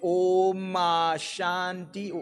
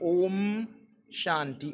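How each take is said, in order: First: An extra vowel follows the M before Shanti. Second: The M leads straight into Shanti, no vowel. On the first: The speaker calls it wrong. "We don't say Oma Shanti" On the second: The speaker calls it right. "we say Om Shanti Om"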